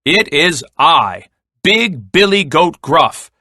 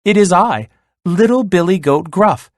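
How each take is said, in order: First: Big, forceful goat voice; booming voice. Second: High little goat voice; tiny voice. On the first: Biggest goat answering the troll, booming voice. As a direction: boom it out, word by word. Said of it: "in a booming voice". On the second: Smallest goat answering the troll, tiny high voice. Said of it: "in a tiny voice". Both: A narrator's reading.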